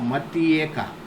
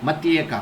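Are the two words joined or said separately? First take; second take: separate; joined. First: The two words are said slowly and separately. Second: The words are run together quickly with a y-sound. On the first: "phonetically, if you speak" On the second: "with full speed if you will speak as you have joined them without anything in between"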